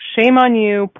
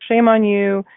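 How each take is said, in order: First: It is said in a stern, harsh tone. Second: It is said in a gentle, kind tone. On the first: The scolding is meant seriously. "the tone changed" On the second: The scolding is meant softly. "at first he was kind of trying to be nice about it"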